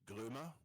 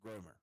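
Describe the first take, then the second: First: The name is said with a German pronunciation. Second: The name is said with an English pronunciation. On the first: "German, in which case it's Grömer" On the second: "you want to have it pronounced in English, then it's Gromer"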